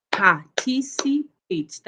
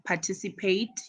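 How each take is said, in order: First: "Participate" slowly in four beats, par-ti-ci-pate, pitched higher; syllable by syllable. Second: Said in the usual way. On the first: Shown as a demonstration. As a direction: count out every syllable of "Participate" for a class. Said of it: "when you pronounce the word". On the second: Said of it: "you just clap your hands".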